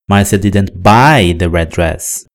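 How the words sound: The word buy carries the strongest stress. She got the dress some way other than buying. "a ideia comunicada é de que ela ganhou o vestido"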